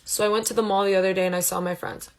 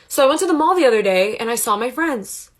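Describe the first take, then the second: First: It is said in a flat, monotone voice. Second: It is said with lively expression in the voice.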